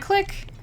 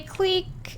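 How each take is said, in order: First: The vowel is a short i sound. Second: The vowel is a long ee sound. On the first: "I mean a click?" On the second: "I thought it was cleek"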